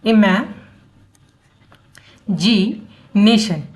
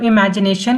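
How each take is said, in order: First: "imagination" drawn out in slow, separate chunks; broken into syllables. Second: Said in the usual way. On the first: Shown as a demonstration. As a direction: teach "imagination" piece by piece, leaving long pauses between the syllables. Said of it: "तीन टुकड़ों में पढ़ के". ("Imagination" को रुक-रुक कर, syllable तोड़कर पढ़ें) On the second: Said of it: "तो अब इमेजिनेशन को".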